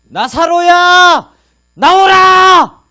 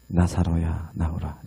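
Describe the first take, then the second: First: It is said in a loud voice. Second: It is said at an ordinary volume.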